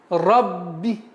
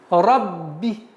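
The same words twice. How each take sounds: No difference in how they are said.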